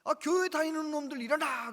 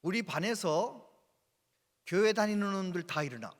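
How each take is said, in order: First: Higher, louder barked order; stern teacher shouting the order; teacher's command. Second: Stern teacher ordering students up; teacher's command. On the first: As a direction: bark it at the class again. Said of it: "아무튼". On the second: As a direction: bark the order at the class. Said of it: "한 얘기가 이러더래요". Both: Retold or imitated.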